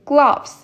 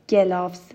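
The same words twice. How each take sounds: First: The first two consonants are joined with no vowel. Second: A vowel is inserted between the first two consonants. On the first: The speaker calls it right. "هیچ vowelی بینشون نیست" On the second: The speaker calls it wrong. "I don't say gloves"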